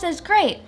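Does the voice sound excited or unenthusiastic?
excited. It is said with lively, happy excitement. The listener shares the happiness. The speaker calls it right. "You should be happy for me"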